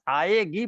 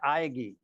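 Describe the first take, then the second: First: The middle syllable is held long and heavy. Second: The middle syllable is said short and light. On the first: The speaker calls it wrong. "आएगी पढ़ेंगे तो लय नहीं बनेगी" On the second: The speaker calls it right. "पढ़ना पड़ेगा आएगी"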